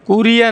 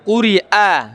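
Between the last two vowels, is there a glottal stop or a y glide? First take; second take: y glide; glottal stop. First: A y glide links the last two vowels. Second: A glottal stop separates the last two vowels. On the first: The speaker calls it wrong. "কুরিয়া না" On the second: The speaker calls it right. "এটা হামজা"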